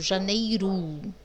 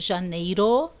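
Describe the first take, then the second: First: The final vowel sounds like U. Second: The final vowel sounds like O. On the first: This is the speaker's natural regional way of talking. "esse O eu falei com som de U" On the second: This follows the written spelling. "Eu não preciso falar assim"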